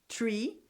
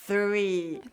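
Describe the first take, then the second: First: The word starts with a plain t sound. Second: The word starts with a th sound. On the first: It sounds like the word for a tree. The speaker calls it wrong. "eu sempre tenho esse erro. Eu vou falar o tree" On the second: It names the number three. The speaker calls it right. "Ah, é mesmo"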